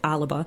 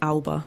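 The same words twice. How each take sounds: First: The word is pronounced in the Scottish way. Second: The word is pronounced in an anglicized way. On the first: The speaker calls it right. "the correct Scottish pronunciation is Alba" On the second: The speaker calls it wrong. "we kept saying Alba"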